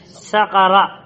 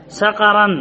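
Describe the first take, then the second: First: Short -a ending on سقر; single fatha, no tanween. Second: Nunated ending on سقرا, "-an"; with tanween. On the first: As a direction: end سقر on a plain open -a. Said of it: "بفتحة واحدة". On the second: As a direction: end سقرا in an -an sound. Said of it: "لم يقل". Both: Shown as a demonstration.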